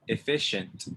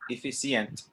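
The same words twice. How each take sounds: First: The middle consonant is an sh sound. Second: The middle consonant is not an sh sound. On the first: The speaker calls it right. "when you see the C and the I together, it makes the sh sound" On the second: The speaker calls it wrong. "Not efficient"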